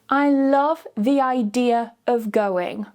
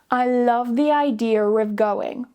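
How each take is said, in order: First: No r sound links idea to of. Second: An r sound links idea to of. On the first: The speaker calls it wrong. "Without the intrusive r" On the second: The speaker calls it right. "With the intrusive r"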